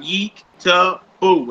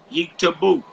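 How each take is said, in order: First: "Yeek ... Ta ... bo" in three separate pieces; syllable by syllable. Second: Said in the usual way. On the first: Shown as a demonstration. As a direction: pause between each syllable of "Yeek Tabo". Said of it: "you separate them with dashes". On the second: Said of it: "So you write out".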